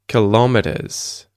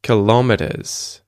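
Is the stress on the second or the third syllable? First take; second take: second; second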